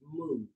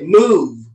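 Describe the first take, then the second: First: It is said gently and politely. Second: It is said somewhat firmly.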